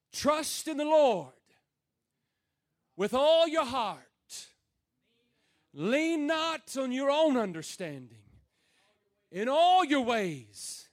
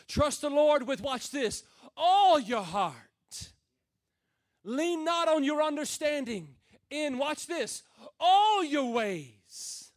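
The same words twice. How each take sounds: First: Slow, weighty reading of the verse; scripture recited with weight. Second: All punched loud and slow; stress on all. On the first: Preacher reading the verse to the church, weighty. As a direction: lay out each phrase for the congregation. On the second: Preacher stressing all for the congregation, loud and slow. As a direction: lean hard on all in "all your heart" and "all your ways". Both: Shown as a demonstration. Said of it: "can I put emphasis on some other words?".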